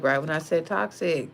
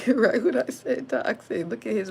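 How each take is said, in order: First: Said in the usual way. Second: Laughing. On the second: Real, not acted. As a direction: laugh through the words as you repeat them. Laughs while repeating toxic.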